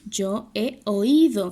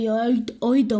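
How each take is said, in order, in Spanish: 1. La o y la i caen en sílabas separadas. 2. La o y la i se unen en una sola sílaba. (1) "usted dice, yo he oído" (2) "Yo no digo"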